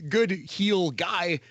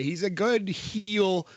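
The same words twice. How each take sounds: First: A slow, drawn-out "good heel guy", lightly mimicking Kalisto; Kalisto impression. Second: A light Kalisto imitation, slow and drawn out; Kalisto impression. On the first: Finishing the Kalisto catchphrase with a slow, light imitation. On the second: Quoting Kalisto's catchphrase about Devlin, slow and lightly mimicked. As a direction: stretch out "good heel" slowly, a hint of Kalisto's accent. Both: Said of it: "as Kalisto would say".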